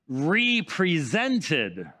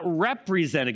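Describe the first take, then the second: First: The prefix 're' is set apart as 'ree'. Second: The word is said as one ordinary word. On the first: It means to make present again. The speaker calls it right. "No, represented, so put a dash in there" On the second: It means to symbolize something else. The speaker calls it wrong. "not represented, because represented in our minds is like the bread and the wine represent something else"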